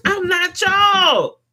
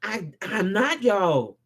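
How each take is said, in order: First: Higher, louder, slow declaration; defiant shout. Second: Low, slow and firm; quiet conviction. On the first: Vlogger separates himself from hypocrites, defiant shout. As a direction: throw it out defiantly. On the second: Vlogger restates his stance, calm conviction. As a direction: say I'm not y'all softly but sure. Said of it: "I come with conviction in my voice". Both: Real, not acted.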